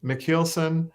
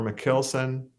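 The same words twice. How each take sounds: First: McKeelson with long ee, like heel; heel pronunciation. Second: McKilson with short i, like kill; kill pronunciation. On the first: Singer compares two accepted names, McKeelson like heel. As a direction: pitch McKeelson up, long ee in the middle. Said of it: "more into the heel". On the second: Singer compares two accepted names, McKilson like kill. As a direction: say McKilson slowly, middle like kill. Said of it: "instead of the kill". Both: Shown as a demonstration.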